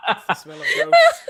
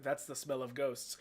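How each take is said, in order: First: Imitated deadpan line. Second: Low, very quiet deadpan delivery. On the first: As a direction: repeat it drily, like a doctor staring ahead. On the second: Retold or imitated. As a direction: drop it low and toneless, imitating a deadpan doctor. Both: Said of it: "Just fucking deadpan staring ahead".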